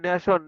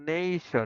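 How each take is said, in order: First: Said with a Bengali-style pronunciation. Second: Said with a standard English pronunciation. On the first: The speaker calls it wrong. "আমরা বলি নেশন" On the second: The speaker calls it right. "এই দেখো নেশন"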